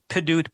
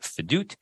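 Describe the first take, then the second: First: The word begins with a p sound. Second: The word begins with an f sound. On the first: This is the word's base form. "The word is actually pidut" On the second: This is the form after the preceding letter softens it. "takes out the dagesh in the pei, makes it fedut"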